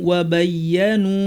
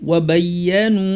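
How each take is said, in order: Both takes have the same delivery.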